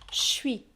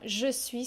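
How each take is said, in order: First: The vowel of je is dropped. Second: The vowel of je is fully pronounced. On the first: "on ne prononce pas le E de je" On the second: "je suis se transforme en"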